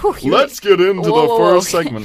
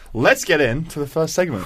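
First: It is said in a loud, hyped sportscaster voice. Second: It is said in a smooth, calm radio voice. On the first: "sports ESPN man" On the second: "smooth radio guy"

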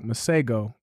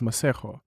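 First: The name is said with an American pronunciation. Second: The name is said with a South African pronunciation. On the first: "I was like Maseko" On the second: "I am aware that it's Maseko"

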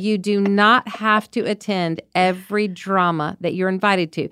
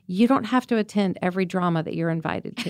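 First: The sentence is said louder, with more force. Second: The sentence is said at normal speaking volume.

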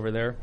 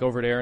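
First: The 'th' in 'there' is a normal 'th'. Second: The 'th' in 'there' sounds like a 'd'. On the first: It is the usual way of saying it. "instead of over there" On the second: It imitates someone with a Brooklyn-style accent. "Like over there instead of"

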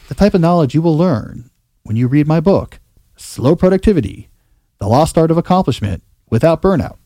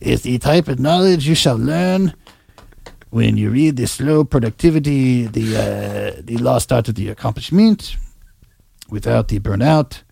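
First: It is said in his normal accent. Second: It is said in a put-on French accent.

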